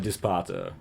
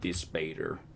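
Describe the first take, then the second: First: The word is said in a posh, refined accent. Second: The word is said in a Southern-sounding accent. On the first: "I sound all hoity-toity" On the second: "it makes me sound like I got a southern accent"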